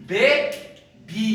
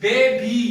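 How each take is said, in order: First: बेबी slowly in two separate beats; split into syllables. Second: Said in the usual way. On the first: Shown as a demonstration. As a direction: break बेबी into बे, pause, बी. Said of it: "तो ये बी".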